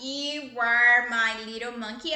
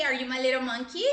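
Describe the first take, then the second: First: Slow and louder, leaning on "are" in "You are my little monkey"; slow statement. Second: "Are you my little monkey?" asked with a rising question tune; playful question. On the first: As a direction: spell it out for a small child, stressing "are". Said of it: "mamãe vai escrever isso daqui". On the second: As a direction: turn it into a teasing question, rising at the end. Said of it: "Você é meu macaquinho?". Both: Shown as a demonstration.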